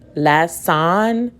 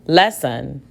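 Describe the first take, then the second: First: The second syllable has a full vowel. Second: The second syllable has a reduced schwa vowel. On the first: The speaker calls it wrong. "that sounds weird" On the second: The speaker calls it right. "Let me try the schwa sound"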